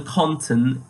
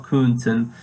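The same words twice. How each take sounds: First: "konnten" stressed with an open O; emphasis on konnten. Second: "könnten" with a rounded umlaut ö; conditional umlaut form. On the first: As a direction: lean on the plain O of "konnten". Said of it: "put emphasis on the konnten". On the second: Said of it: "not conditional". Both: Shown as a demonstration.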